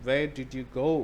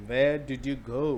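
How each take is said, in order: First: "go" lifted and stressed, question rises at the end; wrong intonation. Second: "where" hit as the key word, rising at the end; right intonation. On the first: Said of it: "it's not where did you go". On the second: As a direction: stress on where, question rising. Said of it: "So that's the intonation". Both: Shown as a demonstration.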